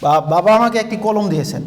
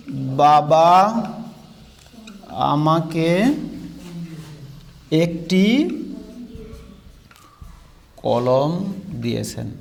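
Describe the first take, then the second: First: Said in the usual way. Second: Each word spoken very slowly with long gaps; slow dictation. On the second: Shown as a demonstration. Teacher dictating a sentence for students to copy, very slow and spaced. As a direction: dictate it word by word so they can write. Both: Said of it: "এবার লিখেন তো".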